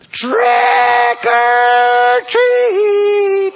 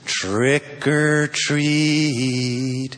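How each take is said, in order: First: It is yelled very loudly. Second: It is said softly and nicely.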